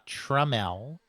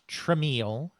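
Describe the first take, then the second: First: The name is said with two syllables. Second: The name is said with three syllables. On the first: The speaker calls it right. "that name is pronounced Jack Tramiel" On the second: The speaker calls it wrong. "not Tramiel, as people would continually attempt to uh, say it"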